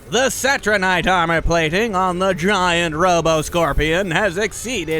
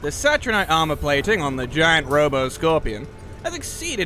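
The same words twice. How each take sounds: First: It is read in a put-on character voice. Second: It is read in the speaker's ordinary voice.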